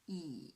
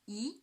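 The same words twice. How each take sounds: First: The pitch dips low, then rises again. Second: The pitch rises from middle to high. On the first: "the third tone, yes, from two to one to four" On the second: "the second tone. From three to five"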